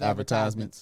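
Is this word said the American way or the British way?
American. It is said with an American pronunciation. "instead of"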